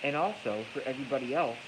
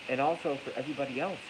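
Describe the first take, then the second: No difference in how they are said.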